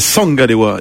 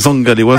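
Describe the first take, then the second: First: The name begins with an s sound. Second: The name begins with a z sound. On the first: The speaker calls it right. "c'est Sangalewa qui se prononce plus avec l'accent du sud" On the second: The speaker calls it wrong. "Et non pas Zangalewa"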